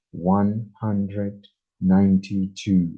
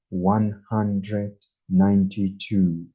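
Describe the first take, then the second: No difference in how they are said.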